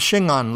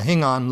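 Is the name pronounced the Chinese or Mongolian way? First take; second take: Chinese; Mongolian. First: It is said with the Chinese pronunciation. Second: It is said with the Mongolian pronunciation. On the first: This is the name as adapted into another language. "Now it has become in Chinese the Shingan" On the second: This is the original local name. "originally called in Mongolian the Hingan"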